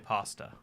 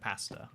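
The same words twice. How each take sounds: First: It is said with an American accent. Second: It is said with a British accent. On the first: "you say pasta" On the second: "instead of pasta"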